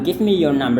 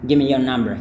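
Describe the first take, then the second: First: Both words of 'give me' are fully pronounced. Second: The words 'give me' run together as 'gimme'. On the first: This form is also acceptable. "juga nggak menjadi masalah" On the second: This is how it is said in everyday speech. "Ini biasanya the yang di sini tidak dilafalkan juga kalau dalam kehidupan sehari-hari"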